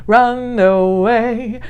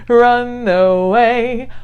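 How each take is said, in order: Both takes have the same delivery.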